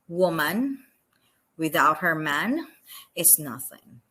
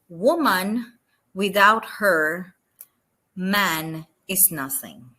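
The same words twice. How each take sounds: First: It is said without pauses. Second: There are pauses after woman and after her.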